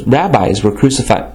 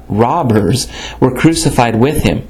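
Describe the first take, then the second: First: "rabbis" said as rab-eyes, a slip for robbers; misread word. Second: Said in the usual way. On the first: Real, not acted. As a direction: read "rabbis" by mistake, like the plural of rabbi.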